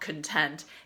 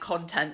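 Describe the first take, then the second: First: The stress is on the second syllable. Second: The stress is on the first syllable. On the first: It means a state of peaceful happiness. "not content" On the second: It means material posted online. "he meant content"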